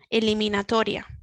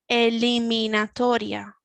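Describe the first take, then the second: First: The word is said at normal speed. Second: The word is said slowly. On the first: "the second one normal speaking speed" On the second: "the first one a little bit slower"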